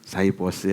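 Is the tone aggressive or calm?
calm. It is said in a gentle, calm tone. The speaker does not want to fight. The speaker calls it right. "Dia kena saya puasa hari ni"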